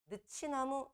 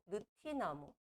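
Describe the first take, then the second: First: The middle consonant is a 'ch' sound. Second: The middle consonant is a 't' sound. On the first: The speaker calls it wrong. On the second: The speaker calls it right.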